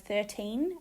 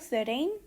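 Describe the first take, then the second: First: The T is a crisp, clear T. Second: The T sounds like a soft D. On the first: "instead of" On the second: "flapped, where the T is pronounced like a D"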